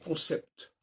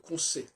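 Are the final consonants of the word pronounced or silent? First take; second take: pronounced; silent. First: The final p and t sounds are pronounced. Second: The final p and t sounds are silent. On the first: "On dit concept. C'est une erreur" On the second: "On pourrait dire qu'on sait"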